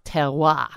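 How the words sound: It is said with a French pronunciation. The speaker calls it right. "is a French word and probably really pronounced terroir"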